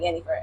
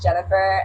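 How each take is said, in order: First: The name begins with a Y sound. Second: The name begins with a J sound. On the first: This is the Spanish way of saying it. "Spanish term is like Yennefer" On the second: This is the American way of saying it. "American name, uh, way is Jennifer"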